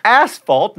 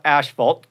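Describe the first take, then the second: First: "Asphalt" with a clear S, AS-falt; correct asphalt. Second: "asphalt" as ASH-falt; wrong asphalt. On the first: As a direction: say "Asphalt" with S, not SH. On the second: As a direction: say "asphalt" with an SH sound. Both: Shown as a demonstration. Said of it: "not asphalt".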